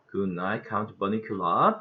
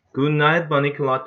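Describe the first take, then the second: First: A sarcastic Transylvanian count, lower and softer; a mocking kid's fake Transylvanian count; sarcastic Transylvanian accent. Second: Said in the usual way. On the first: A narrator's reading. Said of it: "Pete said sarcastically". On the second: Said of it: "Toby said".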